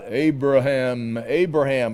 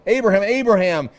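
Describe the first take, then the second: First: The name is called calmly, without urgency. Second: The name is called urgently, like a sudden stop. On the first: A plain, unhurried call. The speaker calls it wrong. "that's not" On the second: Stop right now, this must be interrupted. The speaker calls it right. "It's like, stop, urgent"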